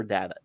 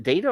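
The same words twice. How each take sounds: First: Data said DAT-uh; short A in data. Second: Data said DAY-tuh; long A in data. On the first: Host unsure which pronunciation is right, data as DAT-uh. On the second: Host unsure which pronunciation is right, data as DAY-tuh. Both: Shown as a demonstration. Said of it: "is it data or data".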